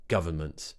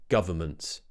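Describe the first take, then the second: The two takes are said the same way.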